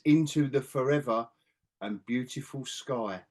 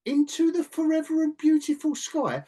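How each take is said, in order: First: Slow, solemn quote of a film line; near-tearful quote. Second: High, louder mocking quote; incredulous mock quote. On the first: Retold or imitated. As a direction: imitate an earnest line, slowing and softening toward the end. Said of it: "I thought you were gonna start crying". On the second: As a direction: imitate the line in disbelief, pitched way up. Mocking an unchildlike film line.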